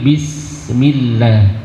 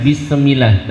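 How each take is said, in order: First: "bismillah" with no e between s and m; correct bismillah. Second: "bismillah" with an added e, bisemillah; wrong bisem. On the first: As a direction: join s to m cleanly. (bismillah tanpa bunyi e) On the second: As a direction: slip a small e between s and m. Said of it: "dihindari bisem, bukan". (bismillah dengan sisipan e, bisemillah) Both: Shown as a demonstration.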